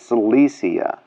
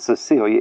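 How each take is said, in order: First: The name is said like Cilicia, sil-ISH-a. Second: The name is said like the name Cecilia. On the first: The speaker calls it right. "it's Cilicia" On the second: The speaker calls it wrong. "it's not Cecilia"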